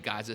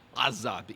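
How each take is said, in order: First: It is said with a plain North American G. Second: It is said with a deep guttural Hebrew sound.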